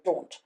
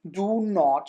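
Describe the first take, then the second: First: The words are joined into one short syllable. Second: Both words are said fully and separately. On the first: "you can easily say" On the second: "instead of saying"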